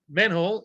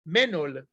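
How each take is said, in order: First: "Menhole" said as English manhole, stress on the first syllable; English pronunciation. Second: "Menol" said the Hebrew way, men-OL; Hebrew pronunciation. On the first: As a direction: say "Menhole" the English way, MAN-hole. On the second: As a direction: give "Menol" its Hebrew sound, two syllables, stress on the end. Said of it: "It's called a menol in Hebrew". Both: Shown as a demonstration.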